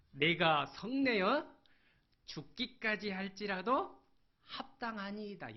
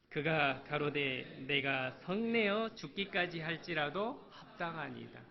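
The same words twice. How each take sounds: First: Loud, slow, high angry answer; defiant retort. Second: Said in the usual way. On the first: Acted. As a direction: throw it back at God. Preacher voices defiant Jonah. (하나님께 크게 대드는 요나)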